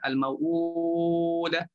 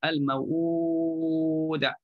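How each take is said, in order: First: The long vowel is held for four counts. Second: The long vowel is held for six counts.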